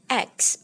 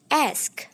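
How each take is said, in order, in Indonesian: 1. Bunyi K datang sebelum bunyi S. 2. Bunyi K datang setelah bunyi S. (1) "Bukan huruf K lalu S. ... Bukan seperti itu" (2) "setelah huruf S itu baru huruf K"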